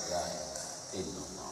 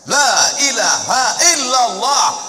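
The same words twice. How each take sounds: First: It is said softly. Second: It is said loudly.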